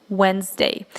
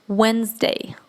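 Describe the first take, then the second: The two takes are said the same way.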